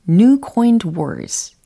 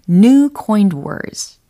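No difference in how they are said.

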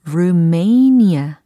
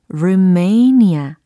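The two takes are said the same way.

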